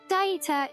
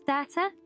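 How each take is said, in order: First: It is said the British way. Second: It is said the American way. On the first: "Maybe it's a British thing where we call it data. ... that's how I say it" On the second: "generalize to the whole U S pronouncing it as data"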